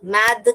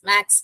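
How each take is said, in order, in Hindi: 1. शब्द का अंत d ध्वनि से होता है। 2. शब्द का अंत ks ध्वनि से होता है। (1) "मैद करके नहीं बोलते हैं" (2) "हम एस करके डाल के इसे हम मैक्स मैक्स मैक्स बोलते हैं"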